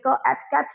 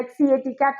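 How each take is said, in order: First: क as a bare sound, एट, then blended कैट; phonics blending. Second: सी ए टी spelled by letter names, then कैट; letter-name spelling. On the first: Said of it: "मैं सिर्फ sounds बोलती हूँ". (क की ध्वनि, फिर एट, जोड़कर कैट) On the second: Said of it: "सी ए टी कैट नहीं बोलती". (सी ए टी अक्षरों के नाम से, फिर कैट) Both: Shown as a demonstration.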